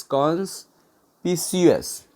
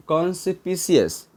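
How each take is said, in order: First: conspicuous slow, a pause after cons; broken up. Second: Said in the usual way. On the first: Shown as a demonstration. Teacher spelling it out for learners, conspicuous slowly in parts. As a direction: say conspicuous in two separated parts.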